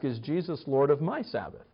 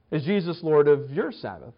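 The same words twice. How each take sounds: First: MY picked out in a softer self-question; stress on MY. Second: YOUR picked out as the question turns outward; stress on YOUR. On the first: Preacher asking himself after study, stress on MY. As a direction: lean on "my", said more quietly. Asks himself, then the listeners. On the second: Preacher putting the question to the congregation, stress on YOUR. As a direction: lean on "your" to challenge the listener. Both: Shown as a demonstration.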